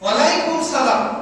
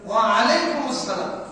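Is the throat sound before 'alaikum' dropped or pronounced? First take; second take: dropped; pronounced. First: The words run together with no throat sound. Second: A distinct throat sound begins 'alaikum'. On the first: The meaning of the greeting is distorted. The speaker calls it wrong. "মানে ওয়ালাইকুম সালাম যদি কেউ বলে অর্থ বিকৃত।" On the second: The greeting keeps its proper meaning. The speaker calls it right. "আপনি আইনটা উচ্চারণ করতে হবে"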